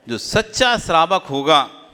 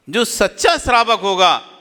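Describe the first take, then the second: First: Said in the usual way. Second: Raised, forceful preaching voice; emphatic repeat. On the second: Real, not acted. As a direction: drive the point home, pitched up. (ज़ोर देकर, ऊँचे स्वर में)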